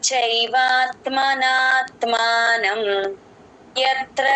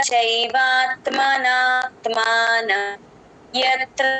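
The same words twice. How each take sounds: No difference in how they are said.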